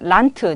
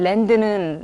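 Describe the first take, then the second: First: It has an open 'ah' vowel and ends in t. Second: It sounds like English 'land', ending in d.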